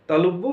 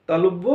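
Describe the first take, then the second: No difference in how they are said.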